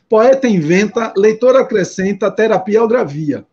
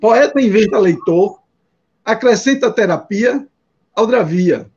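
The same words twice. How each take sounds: First: Pauses fall after inventa and after acrescenta. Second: Pauses fall after leitor and after terapia. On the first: "aqui está escrito assim" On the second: "Mas você pode ler assim"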